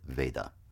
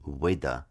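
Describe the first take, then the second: First: The first sound is a clear V. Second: The first sound is close to a W. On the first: "for Western purposes, let's stick with Veda" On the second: "pronounced in India as Veda because Indian people make that V sound a little bit like a W"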